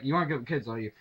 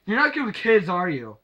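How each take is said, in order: First: Softer, matter-of-fact version; gentle knowing remark. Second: Harsh rhetorical jab. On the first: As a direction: say it mildly, just stating the obvious. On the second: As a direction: throw it at him like a cutting accusation. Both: Retold or imitated. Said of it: "She didn't come out that harsh".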